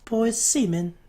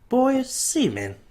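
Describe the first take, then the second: First: It is said at normal speed. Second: It is said more slowly.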